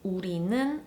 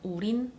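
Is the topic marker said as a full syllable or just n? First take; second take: full syllable; just n. First: The ending is a full syllable, neun. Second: The ending shrinks to a single n sound.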